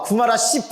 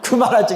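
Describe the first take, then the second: First: The last syllable starts with an s sound. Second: The last syllable starts with a j sound. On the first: The speaker calls it wrong. "구마라 십 하니까 좀 이상해요?" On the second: The speaker calls it right. "여기 집이라고 돼 있으니까 구마라 집 이런 거죠"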